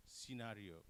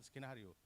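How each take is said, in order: First: Scenario starting see-, no k; correct s sound. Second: Skenario with sk at the start; wrong, hard c. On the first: Shown as a demonstration. Presenter models the correct word, soft c. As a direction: begin scenario on a plain s. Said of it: "s sound". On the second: Retold or imitated. Presenter shows what not to say, hard c. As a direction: begin skenario on s plus k. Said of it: "not, not".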